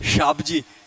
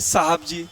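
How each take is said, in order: First: It begins with sh and drops the h. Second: It begins with s and keeps the h. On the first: The speaker calls it wrong. "शाबजी ऐसे बोलते हैं बेचारे।" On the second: The speaker calls it right. "तो होना चाहिए साहब जी"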